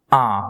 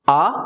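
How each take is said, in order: First: Said in the usual way. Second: आ said with the nose held closed, sounding muffled; nose pinched shut. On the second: Shown as a demonstration. (नाक बंद करके आ) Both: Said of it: "लेकिन मैं आ बोलूं".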